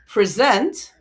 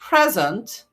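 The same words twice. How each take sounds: First: The stress is on the second syllable. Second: The stress is on the first syllable. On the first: It is a verb. "First one was the verb" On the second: It is a noun meaning a gift. "second one the noun"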